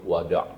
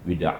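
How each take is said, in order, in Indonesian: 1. Vokal pertama bunyi a. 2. Vokal pertama bunyi i. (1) "kalau daripada Mesir atau daripada Iraq disebut wada'" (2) "lorat Saudi, lorat Kuwait ... akan sebut dengan wida'"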